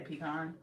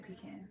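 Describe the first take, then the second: First: "pecan" as pee-KAHN; long AH at the end of "pecan". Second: "pecan" as pee-can, like tin can; short A at the end of "pecan", said softly. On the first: Correcting herself after trying both, "pecan" as pee-KAHN. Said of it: "No, I say pecan". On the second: Wondering about her own pronunciation, soft "pecan" as pee-CAN. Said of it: "maybe I do say pecan". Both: Shown as a demonstration.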